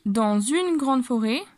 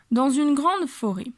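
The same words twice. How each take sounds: First: Slow, with "dans une" linked as "dan-zune"; liaison demo. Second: Said in the usual way. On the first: Shown as a demonstration. Teacher slowly showing the linking in "dans une". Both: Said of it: "las dos palabras dans une se juntan".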